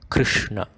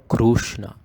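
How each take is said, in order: First: A brief sound between I and U follows. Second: A full clear U vowel follows the K R. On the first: The speaker calls it right. "a sound between I and U" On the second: The speaker calls it wrong. "or Krushna"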